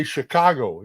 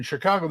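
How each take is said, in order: First: Chicago said with a full 'go' ending; New York Chicago. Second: Chicago with a flattened 'caah' and clipped-off 'guh' ending; Chicago-style Chicago. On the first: Contrasting two cities' accents, Chicago in New York pronunciation. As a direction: say Chicago as a New Yorker would, unstretched. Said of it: "in New York they say Chicago". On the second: Contrasting two cities' accents, Chicago in local pronunciation. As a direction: stretch the middle of Chicago into a twangy 'shi-KAH-guh'. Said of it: "in Chicago they say Chicago". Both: Shown as a demonstration.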